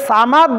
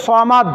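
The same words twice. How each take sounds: First: সামাদ with a light s and open 'aa'; thin sa. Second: সমাদ with a heavy s, rounded 'saw'; thick saad. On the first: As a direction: keep the first sound of সামাদ thin. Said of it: "একটা হচ্ছে সা". (সামাদ-এর সা পাতলা করে) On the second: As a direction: fill the mouth on the first sound of সমাদ. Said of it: "আর একটা হচ্ছে স". (সমাদ-এর স মোটা করে) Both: Shown as a demonstration.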